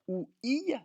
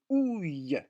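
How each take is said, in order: First: It is said as two separate sounds. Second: It is said as one merged sound. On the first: The speaker calls it wrong. "On ne va pas dire ou, i" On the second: The speaker calls it right. "mais ouille"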